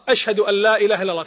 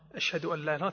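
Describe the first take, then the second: First: The phrase is said in a raised, loud voice. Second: The phrase is said in a low, quiet voice. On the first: "ثم يرفع" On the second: "بصوت منخفض"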